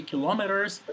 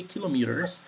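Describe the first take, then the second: First: Kilometers with stress on LOM: ki-LAH-mi-ters; the other pronunciation. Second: Kilometers with stress on KI, middle vowel reduced: KIL-uh-mee-ters; my own pronunciation. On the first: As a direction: say kilometers as ki-LAH-mi-ters, open AH in the second syllable. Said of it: "it's also correct". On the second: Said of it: "I, for example, I say kilometers". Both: Shown as a demonstration.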